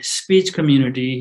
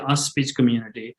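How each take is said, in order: First: Speech starts directly with the s sound. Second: A vowel is added before the s of speech.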